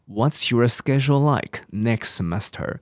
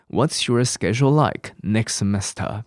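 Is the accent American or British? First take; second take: American; American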